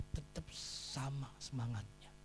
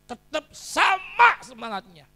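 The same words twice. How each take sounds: First: Soft, restrained answer; tenang meyakinkan. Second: SAMA punched high and loud; slow, forceful answer, hitting SAMA hard; penekanan pada SAMA. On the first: First answer, said softly. (menjawab pelan dan tenang) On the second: Same answer, repeated with force. (tekankan SAMA dengan lantang dan tinggi) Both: Real, not acted.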